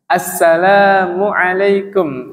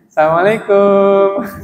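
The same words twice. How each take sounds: First: The syllable lam is drawn out long. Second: The final syllable kum is drawn out long. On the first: The speaker calls it right. "yang panjang lamnya" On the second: The speaker calls it wrong. "Atau kumnya dipanjangin"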